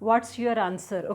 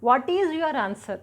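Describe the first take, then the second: First: 'What is' is shortened to one syllable. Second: 'What is' is said as two full words. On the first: "contraction అంటే ఇది కదా వాట్స్" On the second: "అది contraction కాదు, simple"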